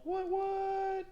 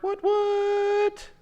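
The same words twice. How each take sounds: First: High squeaky double what; tiny cartoon squeak. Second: High, loud cartoon squeak on what what; loud squeaky double what. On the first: Hyper art reveal, squeaky voice. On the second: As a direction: shriek it like a cartoon character. Hyper art reveal again.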